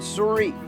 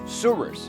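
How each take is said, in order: First: It is pronounced the French way. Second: It is pronounced the American way. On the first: "The French would call it Souris" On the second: "North Dakotans have created their own pronunciation"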